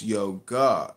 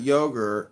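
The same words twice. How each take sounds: First: YOGA slow and low, ending in AH; slow YO-GAH to correct someone; corrected pronunciation. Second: YOGUR with a hard final R; mimicked mispronunciation. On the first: Real, not acted. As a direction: stretch yoga out with no R. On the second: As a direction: yogur ending in ER, as a wrong example. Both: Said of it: "It's not an R at the end".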